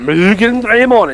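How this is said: It is said in a Japanese accent. The speaker calls it right. "that's because you're saying it with a cool voice"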